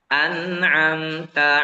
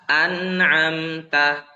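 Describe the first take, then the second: Both takes have the same delivery.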